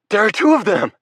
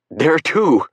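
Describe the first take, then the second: First: Even higher, louder panicked yell; frantic yell. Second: Loud, higher frantic cry; frantic shout. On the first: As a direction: yell it at the doctor, losing control. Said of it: "why I'm yelling at him". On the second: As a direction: blurt it out in a panic, loud. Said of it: "I'm frantic". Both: A narrator's reading.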